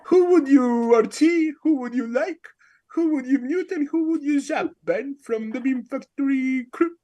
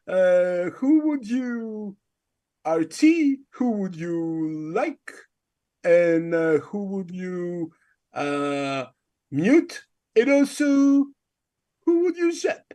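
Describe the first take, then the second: First: Higher, put-on British quiz questions; mock British accent. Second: Slow, drawn-out host questions in a put-on voice; Artie impression. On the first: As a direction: fake a British accent as a non-native speaker. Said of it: "do a fucking British ass accent". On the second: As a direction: imitate a halting quiz host, stretching each question. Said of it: "give us your Artie impression".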